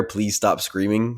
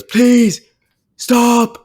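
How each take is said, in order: First: Said in the usual way. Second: Shrieked very high and loud; squealing plea, much higher and louder; high mock scream. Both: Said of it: "where he goes".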